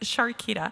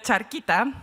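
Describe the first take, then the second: First: The name begins with an 'sh' sound. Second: The name begins with a 'ch' sound. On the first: The speaker calls it right. "but it's Sharkita" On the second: The speaker calls it wrong. "I've been calling her Charquita"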